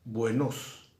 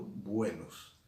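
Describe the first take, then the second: First: "buenos" said buenOS, last syllable loud and rising; "buenos" with the stress wrongly on NOS. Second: "buenos" as BUEnos, first syllable strong, falling close; stress on BUE. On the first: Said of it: "Y tampoco estoy diciendo". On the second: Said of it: "Estoy diciendo". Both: Shown as a demonstration.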